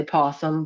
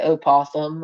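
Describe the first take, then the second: First: "possum" with no opening O; possum without the O. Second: "opossum" with the opening O pronounced. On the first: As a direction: say "possum", starting straight on the P. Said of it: "I say possum". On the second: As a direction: sound the O at the start of "opossum". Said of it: "some people say opossum". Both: Shown as a demonstration.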